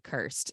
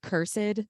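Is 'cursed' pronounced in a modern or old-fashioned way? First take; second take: modern; old-fashioned. First: The word is said in a plain modern way. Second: The word is said in an old-fashioned way.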